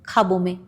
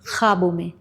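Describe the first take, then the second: First: The first consonant is a plain aspirated k. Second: The first consonant is rasped from the throat. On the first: The speaker calls it wrong. "it's not ख्वाबों में" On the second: The speaker calls it right. "it's from the epiglottis"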